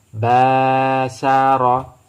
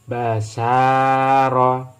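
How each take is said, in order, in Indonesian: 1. Vokal suku kata pertama dipanjangkan. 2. Vokal suku kata tengah dipanjangkan. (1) "Ba harus dibaca dengan panjang" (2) "Yang sin setelah fathah ada alif. Berarti ini yang dibaca dengan panjang"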